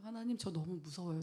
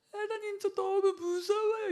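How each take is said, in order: First: Said in the usual way. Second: Much higher, louder, slow tearful plea; weeping prayer, slowed and high; crying prayer. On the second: Retold or imitated. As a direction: cry it out to God, voice breaking high. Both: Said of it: "이러면서 막 울었어요".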